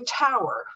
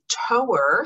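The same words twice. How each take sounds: First: The first vowel sounds like 'now'. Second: The first vowel sounds like 'go'. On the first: A tall structure such as a steeple. "which is a steeple" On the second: Something that tows. "something that tows"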